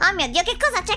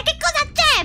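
First: Said in the usual way. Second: Very high, startled shriek of the question; shocked repeat. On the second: Acted. Just woken by a yell, asks again in a high startled shriek. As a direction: jolt awake and squeal it.

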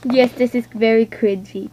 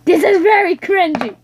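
First: Said in the usual way. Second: Higher, louder exclaim; emphatic. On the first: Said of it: "plain take". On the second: Real, not acted. Speaker admitting the video is cringy, higher louder declaration. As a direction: declare it with embarrassed glee.

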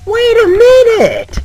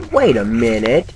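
First: High, slow, drawn-out falsetto "Wait a minute". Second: Said in the usual way. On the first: Acted. Streamer hamming up recognizing the place, high and drawn out. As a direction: stretch "minute" up high and long. Repeats phrase in different voices.

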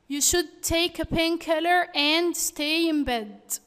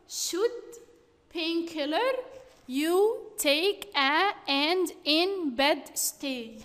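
First: Said in the usual way. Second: Slow, word-by-word reading of a jumbled sentence; scrambled words read out. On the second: Shown as a demonstration. Teacher reads the scrambled words to the class, slow and halting. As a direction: read each jumbled word apart, slowly.

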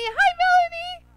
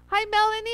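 First: Much higher, louder singsong greeting; sing-song hello. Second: Said in the usual way. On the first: Real, not acted. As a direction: croon her name happily. Greeting a viewer twice.

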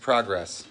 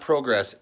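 First: "progress" with an open AH, PRAH-gress; short AH vowel. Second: "progress" with a long O, PRO-gress. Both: Retold or imitated. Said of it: "He said, "It's not progress".

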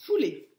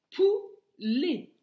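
First: Said in the usual way. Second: "Poulet" in two high, loud beats; teacher sounding out "Poulet" with a gap; split into syllables. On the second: Shown as a demonstration. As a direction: break "Poulet" after the first syllable. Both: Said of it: "la première syllabe".

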